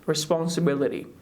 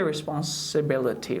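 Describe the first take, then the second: First: The t near the end sounds like a soft d. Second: The t near the end sounds like a clear t. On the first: The speaker calls it right. "Just we can say like responsibility" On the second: The speaker calls it wrong. "Don't say responsibility"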